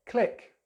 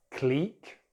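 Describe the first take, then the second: First: "click" with short i; American version, "click" rhyming with pick; American pronunciation. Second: "Clique" as cleek; British "Clique" with long ee; British pronunciation. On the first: Teacher contrasts accents, "click" with short i. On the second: Teacher contrasts accents, "Clique" said cleek. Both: Shown as a demonstration. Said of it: "British English or American English".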